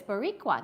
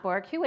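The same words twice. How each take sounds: First: Boricua with every syllable, "bo-ri-cua"; right pronunciation. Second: Put-on Boricua said the old way, like "Bor-cua"; wrong pronunciation. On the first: Correcting herself for the viewer, Boricua now said correctly. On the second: Correcting herself for the viewer, Boricua in the old wrong way. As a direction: Boricua as she said it before. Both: Shown as a demonstration. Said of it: "So I was saying it wrong".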